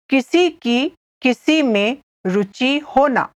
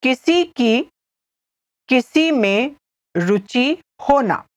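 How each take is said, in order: First: Said in the usual way. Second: Phrase by phrase with clear pauses; careful repeat. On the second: Shown as a demonstration. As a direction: pause after each small chunk. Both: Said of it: "I'll repeat".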